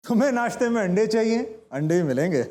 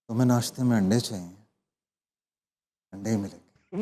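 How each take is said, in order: First: It is said while laughing. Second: It is said in a romantic way.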